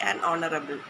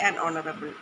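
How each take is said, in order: No difference in how they are said.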